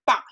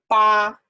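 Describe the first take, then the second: First: The syllable has a falling tone. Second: The syllable has a high level tone. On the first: "If it's falling tone" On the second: "If if it's first tone"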